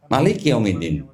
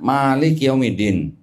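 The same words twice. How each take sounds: First: The first vowel of Malik is kept short. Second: The first vowel of Malik is held long. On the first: It means king. "Ma-nya pendek" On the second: It means ruler. "Di sini panjang"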